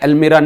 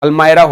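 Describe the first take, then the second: First: The middle vowel sounds like 'ee'. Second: The middle vowel sounds like 'eye'. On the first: The speaker calls it wrong. "अल्मीरा नहीं होता है" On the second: The speaker calls it right. "अल्मायरा होता है"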